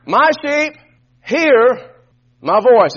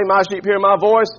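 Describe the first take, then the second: First: Each word set apart with pauses, louder on voice; "My sheep" ... "hear" ... "my voice" with a pause after each, louder by the end; stressed, split phrase. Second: Sarcastic straw-man version; "My sheep hear my voice" lower, with a long doubtful "voice"; mock questioning. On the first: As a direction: break it up to drive it home. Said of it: "is not a suggestion". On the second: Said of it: "Does it say". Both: Shown as a demonstration.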